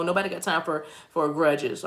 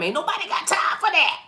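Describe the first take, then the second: First: Said in the usual way. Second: High-pitched comic outburst; exaggerated high voice; put-on catchphrase voice.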